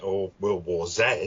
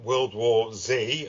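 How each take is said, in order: First: The Z is said the British way, zed. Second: The Z is said the American way, zee.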